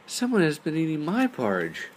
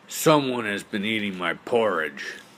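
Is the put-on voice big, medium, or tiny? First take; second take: medium; big. First: It is said in a medium-sized voice. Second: It is said in a big, deep voice. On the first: "cried in her medium-sized voice" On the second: "cried out in his great big voice"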